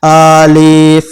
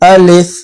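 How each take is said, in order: First: The word is stretched out long. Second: The word is said short and quick. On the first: The speaker calls it wrong. "इसको कभी भी खींच के नहीं पढ़ेंगे, अलिफ ऐसे नहीं पढ़ेंगे" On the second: The speaker calls it right. "तो उसको जल्दी पढ़ेंगे"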